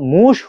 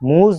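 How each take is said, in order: First: The word ends in a voiceless hissing sh sound. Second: The word ends in a voiced buzzing z sound. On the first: This is how the word is actually said. "দন্তস্বয়ের মতো কেন হলো মুশ" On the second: This is how the spelling suggests it is said. "এটার উচ্চারণ হওয়ার দরকার ছিল মুজ"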